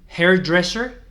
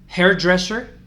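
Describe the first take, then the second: Both takes have the same delivery.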